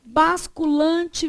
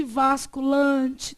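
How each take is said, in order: First: "Basculante" starting with B; first variant. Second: "vasculante" starting with V; second variant. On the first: Teacher listing variants, "Basculante" slowly with a B. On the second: Teacher listing variants, "vasculante" slowly with a V. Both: Shown as a demonstration. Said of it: "O que mais que você pode ter?".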